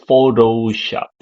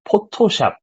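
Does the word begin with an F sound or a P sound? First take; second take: F sound; P sound. First: The word begins with an F sound. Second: The word begins with a P sound. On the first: The speaker calls it wrong. "we don't say Photoshop" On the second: The speaker calls it right. "because we don't have F sound, we use P sound"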